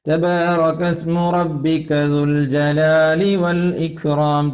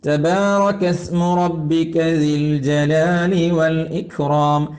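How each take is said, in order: First: The word before jalali has a u vowel. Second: The word before jalali has an i vowel. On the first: The speaker calls it wrong. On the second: The speaker calls it right.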